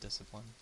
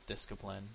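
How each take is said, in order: First: The c is silent, blending into the s. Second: The c is said like a k sound.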